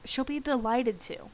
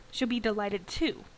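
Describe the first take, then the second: First: Delighted stretched and stressed with a falling tune, to unstressed. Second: Too stressed, rising at the end, delighted left light. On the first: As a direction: lean on delighted and drop the pitch. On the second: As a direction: lift the final too with a rising tune. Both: Shown as a demonstration. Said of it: "Put emphasis on the wrong word".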